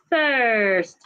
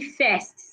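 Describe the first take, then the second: First: The vowel is a long 'er' sound. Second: The vowel is a short 'e' sound. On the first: The speaker calls it right. "The same long er sound that we have in purse is what we have in first" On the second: The speaker calls it wrong. "do not say first"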